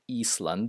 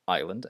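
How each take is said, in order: First: The s in the word is pronounced. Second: The s in the word is silent. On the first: The speaker calls it wrong. "It's not Eastland" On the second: The speaker calls it right. "it's island"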